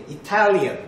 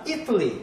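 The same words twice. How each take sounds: First: "Italian" stressed on its second syllable, i-TAL-ian; stress shift demo. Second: "Italy" stressed on its first syllable, IT-a-ly; stress shift demo. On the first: Teacher showing how the accent changes, second syllable stressed in "Italian". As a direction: move the punch onto TAL in "Italian". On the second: Teacher showing how the accent changes, first syllable stressed in "Italy". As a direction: hit the opening syllable of "Italy". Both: Shown as a demonstration. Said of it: "액센트가 바뀌죠".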